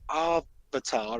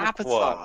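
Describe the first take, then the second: First: It uses the film's altered vowel pronunciation. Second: It uses the show's usual English pronunciation. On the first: The speaker calls it wrong. "as Shyamalan would like it pronounced" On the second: The speaker calls it right. "say it correctly"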